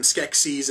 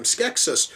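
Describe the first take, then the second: First: Skeksis with a long EE ending, SKEK-seez; pronounced SKEK-seez. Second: Skeksis with a short, weak last vowel, SKEK-sis; pronounced SKEK-sis. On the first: Reviewer quoting what lead characters occasionally call them, Skeksis as SKEK-seez. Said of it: "occasionally calling them". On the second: Reviewer quoting what characters other times call them, Skeksis as SKEK-sis. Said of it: "other times calling them". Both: Shown as a demonstration.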